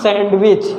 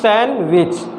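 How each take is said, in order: First: The d sound is pronounced in the middle. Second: The d sound is left out in the middle. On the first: The speaker calls it wrong. "It's not सैंडविच" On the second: The speaker calls it right. "जो ये डी letter है इसको हम लोग pronounce नहीं करेंगे"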